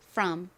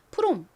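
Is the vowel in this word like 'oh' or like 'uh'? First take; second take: uh; oh. First: The vowel is an open 'uh' sound. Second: The vowel is a rounded 'oh' sound. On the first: "실제 발음은 이 O가 어에 더 가깝게 발음이 나서요" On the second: "한국식으로는 from 이렇게 주로 표기하는데"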